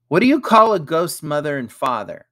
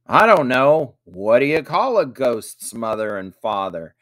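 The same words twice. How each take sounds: First: Put-on high, loud child's riddle voice; raised, lively joke-telling question; boy asking riddle. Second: Emphatic stock reply to a riddle; repeating the riddle. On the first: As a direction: pose the riddle brightly, pitched up. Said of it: "asked Ethan". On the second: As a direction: hand the riddle back with a big "I don't know". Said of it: "repeated Jack". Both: A narrator's reading.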